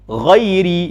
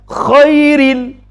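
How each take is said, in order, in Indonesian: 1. Diawali bunyi geraman tenggorokan yang bersuara. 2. Diawali bunyi desisan tenggorokan yang tak bersuara. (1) "Harus huruf gha" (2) "dia baca huruf kha"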